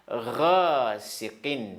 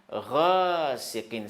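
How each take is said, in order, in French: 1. Il commence par un son guttural, raclé : gh. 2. Il commence par un son guttural, raclé : gh.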